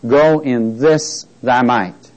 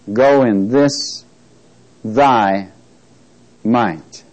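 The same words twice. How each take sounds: First: Said in the usual way. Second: "Go in this thy might" slow, with a break before "thy" and before "might"; "thy" and "might" delivered one word at a time; emphatic pauses. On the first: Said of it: "I'd like to emphasize". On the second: Shown as a demonstration. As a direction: set "thy" and "might" each apart with long pauses. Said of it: "that I'll be emphasizing".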